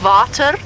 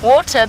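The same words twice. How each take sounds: First: The word starts with a V sound. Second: The word starts with a W sound.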